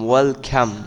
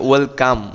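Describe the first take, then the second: First: The second syllable starts with an aspirated k. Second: The second syllable starts with an unaspirated k. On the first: The speaker calls it right. "ওয়েলকাম নয় কিন্তু খাম" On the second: The speaker calls it wrong. "অনেকে বলতে পারে কি ওয়েলকাম"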